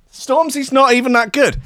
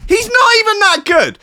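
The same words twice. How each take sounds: First: Said in the usual way. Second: Much higher and louder, half-crying protest; mock outraged whine. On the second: Real, not acted. Ranting to the listeners about [name], in a high loud mock whine. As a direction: wail that he's not even that good. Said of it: "[name]'s not even that good".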